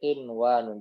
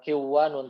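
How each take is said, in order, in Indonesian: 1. Bunyi n terdengar jelas sebelum w. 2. Bunyi n menyatu dengan bunyi w setelahnya.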